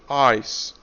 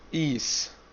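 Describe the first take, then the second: First: The vowel is said like 'eye'. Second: The vowel is said like 'ee'. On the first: The speaker calls it right. "here I is strong" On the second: The speaker calls it wrong. "some people, they pronounce I as E. They will say is. No"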